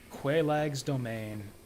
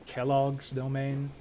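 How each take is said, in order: First: The name is not pronounced like 'Kellogg'. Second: The name is pronounced like 'Kellogg'.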